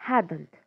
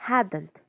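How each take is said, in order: Both takes have the same delivery.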